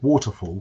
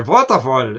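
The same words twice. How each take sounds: First: Said in the usual way. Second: "Waterfall" with the W turned to a German V, said louder; mock German saying "Waterfall" as "Vaterfall"; German accent. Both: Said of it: "couldn't pronounce the, uh, their V's and W's".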